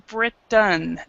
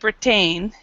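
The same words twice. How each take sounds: First: The second syllable has a reduced 'uh' vowel. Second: The second syllable has a full, clear vowel. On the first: The speaker calls it right. "the second part is is is a uh sound" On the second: The speaker calls it wrong. "it's not Britain"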